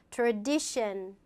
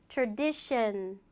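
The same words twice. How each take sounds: The two takes are said the same way.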